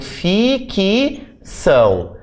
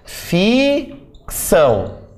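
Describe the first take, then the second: First: An extra i vowel is heard between the consonants. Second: No extra vowel is heard between the consonants. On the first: The speaker calls it wrong. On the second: The speaker calls it right.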